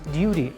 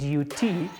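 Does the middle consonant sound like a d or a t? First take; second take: d; t. First: The middle consonant sounds like a soft d. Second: The middle consonant is a crisp t. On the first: The speaker calls it right. "changing T to, to D" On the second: The speaker calls it wrong. "not duty"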